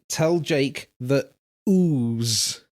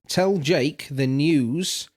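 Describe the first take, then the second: First: The last word drops its opening sounds, sounding like ooze. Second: The last word is said with its n and y sounds. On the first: "you say" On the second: "instead of saying"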